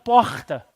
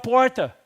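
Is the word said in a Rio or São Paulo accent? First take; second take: Rio; São Paulo. First: The word is said with a Rio accent. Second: The word is said with a São Paulo accent. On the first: This is how the locals speak. "e não porta" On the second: This is how the visitor speaks. "você fala porta"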